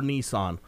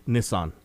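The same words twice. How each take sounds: First: Said in the usual way. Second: Nissan said NISS-an, short i, falling; movie pronunciation. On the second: Retold or imitated. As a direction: Nissan with a short clipped first vowel, tune falling. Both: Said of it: "or as they say in the movie".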